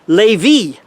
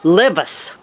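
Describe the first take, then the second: First: The name is pronounced the French way. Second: The name is pronounced the English way. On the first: The speaker calls it right. "the francophones uh, ... would tend to uh, more say uh" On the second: The speaker calls it wrong. "I use the anglicized uh, pronunciation for uh"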